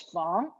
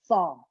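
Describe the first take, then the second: First: The word is said in a changed tone. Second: The word is said in its original tone. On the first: "the change tone, the fong" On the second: "This is in the original tone"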